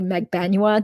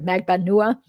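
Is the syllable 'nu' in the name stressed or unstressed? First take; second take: unstressed; stressed. First: The syllable 'nu' is not given the stress. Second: The stress falls on the syllable 'nu'. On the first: The name is simplified for easier American pronunciation. "I'm going to start calling Katie Magbanua now" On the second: The name is said as in the ancestral country. "instead of Magbanua"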